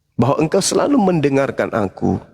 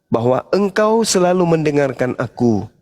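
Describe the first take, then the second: No difference in how they are said.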